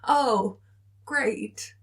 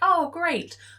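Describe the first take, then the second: First: It sounds sarcastic and uneasy. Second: It sounds genuinely pleased.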